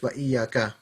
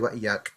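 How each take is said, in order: First: The final vowel is pronounced at the end. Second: The final vowel is dropped from the end. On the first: This is the full proper form. "But really, it's wa iyyaka" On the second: This is the relaxed conversational form. "you drop the ending off"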